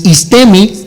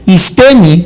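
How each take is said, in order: First: "istemi" said again, level and clear; repeated for dictation. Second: "Istemi" said slowly and clearly, no accent; dictating "Istemi" for note-taking; spelling it out. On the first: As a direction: repeat "istemi" so they can write it. ("istemi" repetido para apuntar) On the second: ("Istemi" dictado despacio y claro, sin acento) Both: Shown as a demonstration. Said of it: "sin acento, con dos is latinas".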